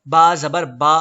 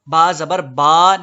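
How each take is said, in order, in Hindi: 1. अंतिम स्वर को लंबा खींचा गया है। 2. अंतिम स्वर को लंबा खींचा गया है।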